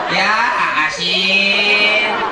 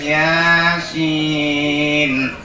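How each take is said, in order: First: It is split into two separate words. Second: It is said smoothly as a single word. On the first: The reader cannot read Arabic and sounds out the Latin spelling. "dia baca Latinnya. Kan A-nya banyak itu. Dibacanya ya asin" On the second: The reader knows how to read the Arabic. "Kalau yang bisa ngaji mah enak"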